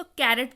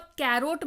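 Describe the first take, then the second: First: कैरेट with a short "-ret" ending; correct pronunciation. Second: कैरोट with an "oat" ending; wrong pronunciation. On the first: Teacher shows learners how to read carrot, कैरेट ending in "-ret". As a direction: say कैरेट, second syllable "ret", not "rot". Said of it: "इसको कैरेट पढ़िएगा". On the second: Teacher warns learners off this reading, कैरोट mispronounced with "-rot". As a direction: say कैरोट, second syllable rhyming with boat. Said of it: "कैरोट मत पढ़िएगा". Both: Shown as a demonstration.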